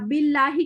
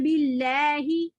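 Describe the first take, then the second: First: The vowel after the l is an open ah. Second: The vowel after the l is tilted toward ay.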